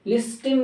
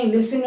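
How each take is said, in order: First: लिस्टिंग as lis-tin, T sounded. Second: लिस्टिंग as lis-in; silent T. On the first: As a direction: put a clear T in लिस्टिंग. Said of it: "लिस्टिंग नहीं". (लिस्टिंग में ट साफ़) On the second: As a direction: drop the T from लिस्टिंग. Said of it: "लिस्टिंग होता है". (लिस्टिंग को लिसिन बोलें) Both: Shown as a demonstration.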